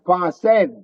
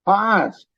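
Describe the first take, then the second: First: The final e is sounded as a syllable. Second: The final e is silent, one syllable. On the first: The speaker calls it wrong. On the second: The speaker calls it right. "is not pronounced"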